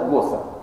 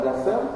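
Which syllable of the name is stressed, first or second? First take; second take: first; second. First: The stress is on the first syllable. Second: The stress is on the second syllable. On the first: The speaker calls it right. "на первое ударение" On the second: The speaker calls it wrong. "ударение на первое слово, да, не Госсен"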